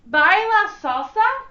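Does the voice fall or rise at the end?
rise. The voice rises at the end.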